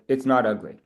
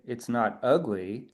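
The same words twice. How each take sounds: First: It is said in a plain, neutral tone. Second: It is said in a grudging, hedging tone. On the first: It is simply not ugly. "instead of" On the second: It is not really good either. "The fact that I say"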